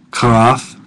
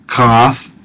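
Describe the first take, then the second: No difference in how they are said.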